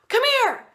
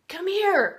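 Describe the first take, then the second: First: It is shouted loudly. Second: It is said softly.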